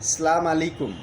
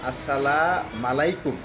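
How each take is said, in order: First: The first word is said as 'salam' without 'as'. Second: The first word is shortened to 'assam'. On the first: It wishes divine wrath upon the listener. "তিন নম্বরে সালাম আলাইকুম" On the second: It wishes death upon the listener. "এই কথাটা বললে অর্থ হয়ে যায় আপনার মৃত্যু হোক"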